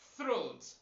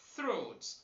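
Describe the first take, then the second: First: The th is a voiceless dental fricative. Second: The same.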